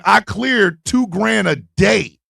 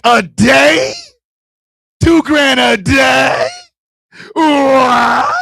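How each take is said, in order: First: Slow, even, self-assured statement; matter-of-fact boast. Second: Loud, high incredulous questions; shocked disbelief. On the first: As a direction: state it slowly and coolly. Woman states her earnings. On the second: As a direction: yell it back in astonishment, building to a cry. Shocked at her earnings. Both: Retold or imitated.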